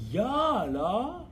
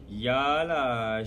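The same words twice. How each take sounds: First: It is said in a surprised tone. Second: It is said in a sarcastic tone.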